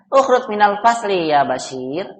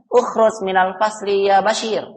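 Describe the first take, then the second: First: It is said with the tune of a question. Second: It is said with the tune of a command. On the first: The speaker is asking something. The speaker calls it wrong. "Itu pertanyaan" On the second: The speaker is ordering someone. The speaker calls it right.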